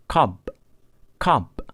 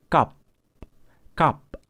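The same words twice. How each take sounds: First: "cup" said as cob, ending in a voiced B; final B sound. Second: "cup" said as cop, ending in a voiceless P; final P sound. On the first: Teacher compares B against P for learners, voiced final B in "cup". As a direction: voice the last consonant of "cup" as B. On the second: Teacher compares P against B for learners, voiceless final P in "cup". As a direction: end "cup" on a crisp unvoiced P. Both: Shown as a demonstration. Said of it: "mari kita bandingkan suara B dan suara P".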